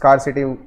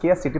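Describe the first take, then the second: First: The first syllable sounds like 'scar'. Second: The first syllable sounds like 'scare'. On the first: "सिटी में स्कार्सिटी हो गई, ऐसे याद करना" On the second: "वैसे इसको स्केयर सिटी प्रोनाउंस करते हैं"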